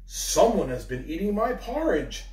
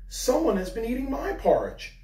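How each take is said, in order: First: It is said in Father Bear's great big voice. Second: It is said in Mother Bear's middle-sized voice.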